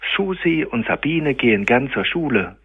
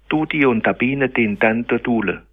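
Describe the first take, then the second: First: S, SCH, Z and G sounds are kept. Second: S, SCH, Z and G become a D sound. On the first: The sentence is said the way an adult says it. The speaker calls it right. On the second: A child who cannot yet say these sounds said it. The speaker calls it wrong.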